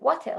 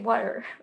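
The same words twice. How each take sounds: First: The T in the middle is crisply pronounced. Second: The T in the middle is softened away. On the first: The listener could not understand it. The speaker calls it wrong. "She did it like with this heavy Hebrew accent" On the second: The listener will understand it. The speaker calls it right. "don't say the T's"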